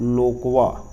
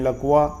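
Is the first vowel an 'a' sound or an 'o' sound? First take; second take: o; a. First: The first vowel is an 'o' sound. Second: The first vowel is an 'a' sound. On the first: This is the Chhattisgarhi form. "Chhattisgarhi में बोलेंगे तो लोकवा" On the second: This is the standard Hindi form. "Hindi में लकवा"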